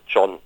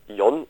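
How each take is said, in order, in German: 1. Der Name beginnt mit einem j-Laut. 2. Der Name beginnt mit einem y-Laut. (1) "wird eben Englisch ausgesprochen" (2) "der Name ist dann nicht John"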